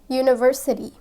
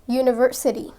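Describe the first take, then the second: Both takes have the same delivery.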